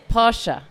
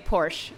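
First: The final E is pronounced. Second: The final E is silent. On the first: The speaker calls it right. "you're spot on" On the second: The speaker calls it wrong. "in the US, we say Porsche, and I know that's wrong"

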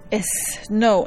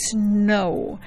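First: An extra e vowel is added before the s. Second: The word starts directly with the s sound. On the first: The speaker calls it wrong. "tenemos esa costumbre de ponerle una E adelante de la S" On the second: The speaker calls it right. "Solo se pronuncia el sonido"

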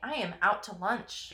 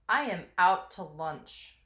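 First: It is said in a puzzled, confused tone. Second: It is said in a fed-up, done-with-it tone. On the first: The speaker does not understand what is going on. The speaker calls it right. "Inflection matters" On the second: The speaker has had enough and is moving on. The speaker calls it wrong. "the inflection that I gave you was totally leading you that way"

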